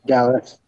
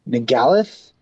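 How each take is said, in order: First: The name begins without an N sound. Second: The name begins with an N sound. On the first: The speaker calls it right. "I think the N is silent" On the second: The speaker calls it wrong. "My pronunciation's bad for this creature"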